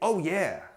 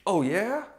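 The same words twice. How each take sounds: First: It sounds happy and excited, like agreeing. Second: It sounds doubtful, like a disbelieving question.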